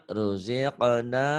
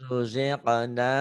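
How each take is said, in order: No difference in how they are said.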